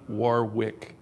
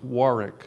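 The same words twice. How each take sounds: First: The middle w is sounded. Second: The middle w is silent. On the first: The speaker calls it wrong. "not Warwick" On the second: The speaker calls it right. "it's Warwick"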